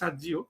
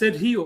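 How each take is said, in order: First: The name is said with an American pronunciation. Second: The name is said with a Spanish pronunciation. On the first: "আমেরিকাতে সার্জি বলতে পারে" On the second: "এই উচ্চারণটা অবশ্য বাংলাদেশের কোনো মানুষ করতে পারে না, এটা একটা আহ, স্প্যানিশ উচ্চারণ"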